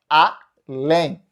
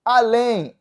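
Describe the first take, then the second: First: "além" split in two, a-LÉM, last syllable stressed; oxytone stress. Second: Said in the usual way. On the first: Shown as a demonstration. Teacher shows the word is oxítona, "além" split with final stress. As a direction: break "além" after the a and land on "lém". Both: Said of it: "Já é oxítona".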